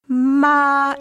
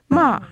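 First: The pitch stays level and flat throughout. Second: The pitch drops quickly downward. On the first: "it's a flat tone" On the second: "a rapid downward gliss"

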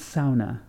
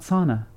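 First: The word has a Finnish-style pronunciation. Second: The word has an English-style pronunciation. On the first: The speaker calls it right. "It's sauna" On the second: The speaker calls it wrong. "It's not sauna"

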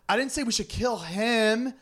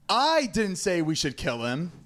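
First: The stress is on the word 'him'. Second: The stress is on the word 'I'. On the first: "It's a completely different meaning" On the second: "So if you emphasize each of those words, it's a completely different meaning"

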